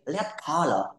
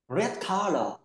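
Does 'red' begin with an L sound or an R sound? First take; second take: L sound; R sound. First: The word red begins with an L sound. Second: The word red begins with an R sound. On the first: The speaker calls it wrong. "make mistakes of sound R and L" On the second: The speaker calls it right. "instead of saying red"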